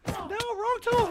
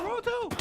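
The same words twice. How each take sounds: First: High, slow panicked cry; panicked yelp. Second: High quick panicked repeat; panicked yelp. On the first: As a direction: yelp in alarm at the mistake. Panic, wrong item selected. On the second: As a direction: blurt it again in alarm. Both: Real, not acted.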